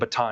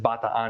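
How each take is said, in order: First: It is said the local American way. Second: It is said the Filipino Tagalog way. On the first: The speaker calls it wrong. "I got bitched at by a lady in Hawaii for saying Bataan" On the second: The speaker calls it right. "It's Bataan because it's uh, it's Filipino, it's Tagalog"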